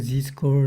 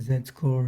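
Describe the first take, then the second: First: The letter Z is said the American way. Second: The letter Z is said the British way. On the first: "the Americans say Z score" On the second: "British say Z score"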